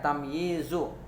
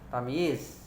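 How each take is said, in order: First: The word ends with a short u vowel. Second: The word ends on the consonant z.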